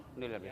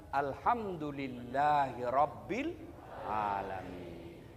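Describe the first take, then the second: First: Alhamdulillah muttered low and short; mumbled thanks. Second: Slow, low, reverent recitation; devout recitation. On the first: Preacher mocks a careless thanks, low and muttered. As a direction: throw the Alhamdulillah away, barely voiced. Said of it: "Jangan kau bilang, "Alhamdulillah". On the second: Preacher shows the congregation how to give thanks, slow and reverent. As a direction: intone it slowly and low. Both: Shown as a demonstration.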